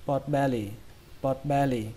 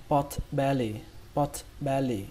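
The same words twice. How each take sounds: First: "pot belly" run together as one quick word; quick reading. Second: Said in the usual way. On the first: Shown as a demonstration. Teacher shows learners the fast way, quick joined-up "pot belly". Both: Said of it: "Cách đọc nhanh".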